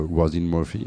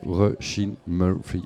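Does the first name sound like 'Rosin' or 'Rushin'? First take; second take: Rosin; Rushin. First: The first name sounds like 'Rosin'. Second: The first name sounds like 'Rushin'. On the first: The speaker calls it wrong. "Et pas Rosin Murphy" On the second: The speaker calls it right.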